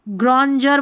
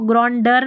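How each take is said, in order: First: The consonant after n is a j sound. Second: The consonant after n is a d sound. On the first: The speaker calls it right. "ग्रॉन्जर बोलते हैं इसको" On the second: The speaker calls it wrong. "ग्रॉन्डर नहीं बोलते"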